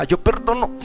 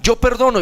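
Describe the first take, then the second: First: Higher, held-back re-enacted effort; struggling to say it. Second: Higher, steady model phrase to repeat; prompting. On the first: Son unable to forgive his father, struggling. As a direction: force the words out as if held back. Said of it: "no era capaz". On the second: Retold or imitated. Women urging him to forgive, steady prompting. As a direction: lead someone to say it after you. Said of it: "di conmigo".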